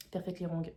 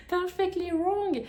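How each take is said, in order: First: Said in the usual way. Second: High, slow, exaggerated English accent, laughing into it; hammed-up English accent. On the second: Shown as a demonstration. Mocking her bad English accent on the book title, hammed-up English accent. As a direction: overdo a posh English accent, stretching Wrong. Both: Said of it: "oh, l'accent anglais nul".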